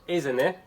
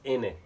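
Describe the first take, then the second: First: The consonants in "isn't" are fully pronounced. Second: The consonants are dropped, giving "in it".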